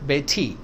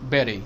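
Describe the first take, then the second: First: The middle t sounds like a crisp t. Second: The middle t sounds like a soft d. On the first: The speaker calls it wrong. "Not बेटी" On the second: The speaker calls it right. "बेरी not बेटी"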